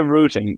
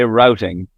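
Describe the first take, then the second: First: The word is said in the speaker's own accent. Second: The word is said with an American pronunciation. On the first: "we say routing" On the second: "The Americans say routing"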